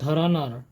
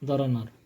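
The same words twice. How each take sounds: First: The first consonant has a strong breathy release. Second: The first consonant has no breathy release. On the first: The speaker calls it right. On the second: The speaker calls it wrong.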